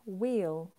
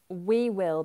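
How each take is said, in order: First: It is said as one contracted syllable. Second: It is said as two full words. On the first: "We will becomes wheel, like the wheel on a car" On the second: "We will becomes wheel"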